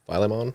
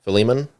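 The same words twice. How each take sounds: First: Philemon as FY-luh-mon, rising; unsure FY-luh-mon for Philemon; questioning pronunciation. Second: Philemon as fuh-LEE-mun, rising; corrected pronunciation. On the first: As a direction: ask Philemon with a long first i, like "file". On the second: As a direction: stress the middle of Philemon, "LEE". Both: Real, not acted. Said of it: "Depending on how you choose to".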